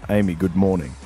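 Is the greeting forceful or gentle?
gentle. The greeting is soft and gentle.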